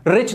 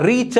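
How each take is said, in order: First: Said in the usual way. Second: रिच split as "ree... cha"; broken in two. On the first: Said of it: "मुंह से एक बार". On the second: Shown as a demonstration. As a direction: break रिच into two separate sounds, wrongly. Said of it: "रिच को तोड़ के दिखाओ". (रिच को तोड़कर, "री-च")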